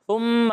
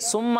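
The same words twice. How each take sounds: First: The first consonant is a soft th sound. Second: The first consonant sounds like s or t. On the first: The speaker calls it right. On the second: The speaker calls it wrong.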